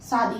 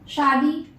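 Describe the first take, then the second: First: The word begins with an 's' sound. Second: The word begins with an 'sh' sound. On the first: The speaker calls it wrong. "नहीं" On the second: The speaker calls it right.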